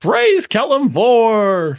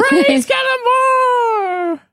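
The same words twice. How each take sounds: First: Loud, slow, high exaltation; excited cheer. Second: Very high, slow, laughing shout; laughing cheer. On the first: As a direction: cry it out in triumph. Players cheer the deity. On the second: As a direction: echo it laughing and exultant. GM echoes the cheer. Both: Acted.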